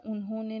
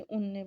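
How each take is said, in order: First: Said in the usual way. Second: उनने said fast, the middle syllable swallowed; hurried short form. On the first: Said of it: "पूरा नहीं बोलते". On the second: Shown as a demonstration. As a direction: clip उन्होंने down to उनने, as if in a hurry. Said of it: "जल्दी-जल्दी में हम बोल देते".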